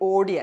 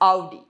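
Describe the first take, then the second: First: The first vowel sounds like 'oh'. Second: The first vowel sounds like 'ow'. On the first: The speaker calls it wrong. "ഇത് ഓഡി അല്ല" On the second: The speaker calls it right. "it's ഔഡി"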